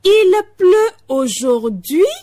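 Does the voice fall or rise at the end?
rises. The voice rises at the end.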